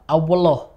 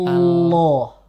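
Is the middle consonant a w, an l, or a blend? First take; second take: blend; l. First: The middle consonant blends w and l. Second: The middle consonant is a pure l. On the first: The speaker calls it wrong. "tercampur antara wawu dan lam" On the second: The speaker calls it right. "dibaca dengan murni lam"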